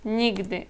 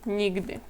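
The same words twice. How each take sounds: The two takes are said the same way.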